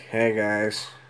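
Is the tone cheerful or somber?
somber. It is said in a somber, subdued tone.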